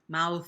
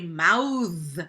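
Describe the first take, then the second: First: The final th is breathy with no voicing. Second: The final th is buzzing with vocal voicing. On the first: It names the body part. "My mouth, obviously, is voiceless" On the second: It means to articulate or speak something. "that's the voiced one"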